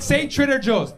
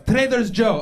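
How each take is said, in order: First: Said in the usual way. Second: "Trader's Joe" with the s moved onto Trader, in a high grandma voice; grandma's mispronunciation. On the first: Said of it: "Wait, wait, say Trader Joe's". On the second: Acted. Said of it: "That's how she says it".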